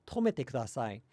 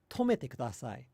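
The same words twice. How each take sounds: Both takes have the same delivery.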